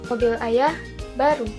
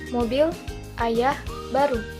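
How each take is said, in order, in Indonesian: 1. Jeda ada setelah 'ayah', sebelum 'baru'. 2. Jeda ada setelah 'mobil', sebelum 'ayah'. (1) "pada kalimat pertama menunjukkan bahwa ayah memiliki mobil baru" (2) "yang kedua menjelaskan bahwa ayah baru saja mempunyai mobil"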